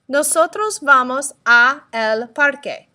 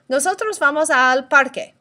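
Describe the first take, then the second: First: The words 'a' and 'el' are said separately. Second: The words 'a' and 'el' merge into 'al'. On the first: The speaker calls it wrong. "that's kind of hard to say" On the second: The speaker calls it right. "Now let's try and say that quickly"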